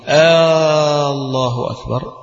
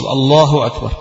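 First: The opening vowel is drawn out like a question. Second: The opening vowel is short and the phrase flows. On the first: It asks whether God is greatest. The speaker calls it wrong. "بمد همزة الله" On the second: It is a statement that God is greatest. The speaker calls it right. "لابد أن يوصل الله أكبر"

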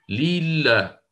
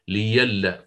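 First: A long ee vowel comes after the first l. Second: A short i is followed by a consonant y. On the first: The speaker calls it wrong. "إلى كونها ياء مادية مثلا في هذه الحالة، وهي أصلا مسبوقة بكسر، فتقول ليلا هكذا بهذه الطريقة" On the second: The speaker calls it right. "فأبدلت ياء مفتوحة"

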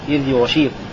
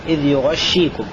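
First: The sh is single and the gh has no vowel. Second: The sh is doubled and the gh takes a vowel. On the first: "بتخفيف الشين إذ يغشيكم مع سكون الغين" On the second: "بفتح الغين وتشديد الشين"

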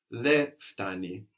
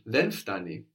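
First: No n sound is heard before the second word. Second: An n sound is heard before the second word. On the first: "in standard Greek, you will hear that N being dropped" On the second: "Very good on the pronunciation there"

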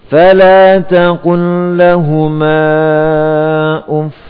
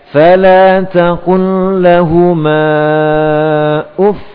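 First: The final word is said at normal level. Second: The final word is raised higher and stronger. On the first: The speaker calls it wrong. "Kalau dibaca biasa seperti ini. ... segini ini belum nabar" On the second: The speaker calls it right. "Nah, ini nabar"

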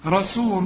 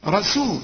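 No difference in how they are said.

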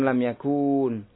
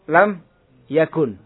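First: The vowel before the final n is long. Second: The vowel before the final n is short. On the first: The speaker calls it wrong. "bukan lam yakun" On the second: The speaker calls it right. "Karena ada pertemuan dua sukun"

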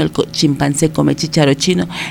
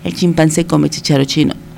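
Both takes have the same delivery.

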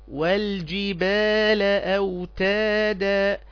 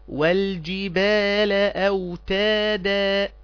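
No difference in how they are said.

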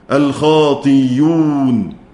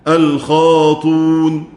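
First: The hamza is replaced by a y sound. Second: The hamza is dropped entirely. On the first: "الإبدال ياء مضمومة" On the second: "على الرسم الحذف الخاطون"

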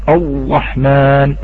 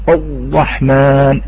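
The two takes are said the same way.

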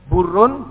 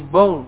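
First: The r is pronounced as a normal r. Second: The r is replaced by a guttural gh sound.

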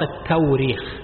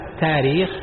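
First: A w sound replaces the glottal stop. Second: A plain long a replaces the glottal stop. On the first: This form is used by some but is uncommon. "الهمزة تبدل بواو" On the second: This form is a softened version. "فهو تسهيل"

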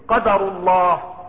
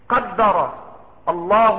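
First: The d is single, read as a noun. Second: The d is doubled, read as a verb. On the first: It is the decree of God. "هذا قدر الله" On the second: God decreed it. "وضبطت قدر"

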